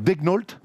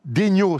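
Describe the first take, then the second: First: The name is pronounced the American way. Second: The name is pronounced the French way. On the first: "les Ricains le prononcent donc Degnault" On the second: "c'est un nom français"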